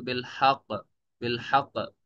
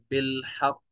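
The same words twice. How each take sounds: First: बिल हक stopped on double q without the final i; doubled qaf, vowelless stop. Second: बिल हक with doubled q and a final i; doubled qaf, voweled. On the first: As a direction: close बिल हक on a firm qq, no vowel after it. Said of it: "इसको वक्फ करेंगे". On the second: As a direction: say बिल हक as bil-haqqi, sounding the last vowel. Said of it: "तजदीद की मिसाल है". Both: Shown as a demonstration.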